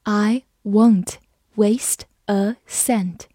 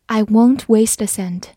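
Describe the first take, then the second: First: Slow, careful reading for learners. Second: Said in the usual way. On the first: Shown as a demonstration. Teacher reads slowly for the class. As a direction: read it slowly, word by word. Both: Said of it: "Waste就是浪费的意思。".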